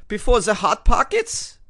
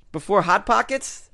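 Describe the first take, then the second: First: Loud, high, slower mock-German question; German accent. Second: Said in the usual way. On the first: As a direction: repeat it incredulously in a hammed-up German accent. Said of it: "This is my German accent".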